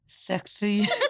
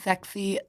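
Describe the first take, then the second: First: The s sounds clearer, tongue kept inside. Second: The s sounds lisped, tongue between teeth. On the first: "I'm gonna actually try and keep it in" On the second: "watch mine"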